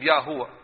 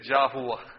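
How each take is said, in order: First: The word begins with a Y sound. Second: The word begins with a J sound. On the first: The speaker calls it right. "They are actually looking into the name Yahuwa. Yah means only Him" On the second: The speaker calls it wrong. "they spoil it and they say Jahuwa"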